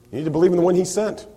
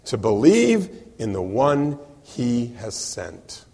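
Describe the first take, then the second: First: Fast, light run-through of believe in the one he sent; quick restatement. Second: Believe drawn out, very slow and deliberate; slow emphasis. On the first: Preacher restating the answer to the congregation, fast. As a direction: rattle it off quickly. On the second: Preacher giving Jesus' answer, very slow and deliberate. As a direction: spell out believe word by word. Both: Shown as a demonstration. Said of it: "This is what you need to do".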